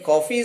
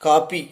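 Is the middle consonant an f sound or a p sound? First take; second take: f sound; p sound. First: The middle consonant is an f sound. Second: The middle consonant is a p sound. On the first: The speaker calls it right. "Coffee is the correct uh, pronunciation" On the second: The speaker calls it wrong. "In our Tamil conversation, we often say copy"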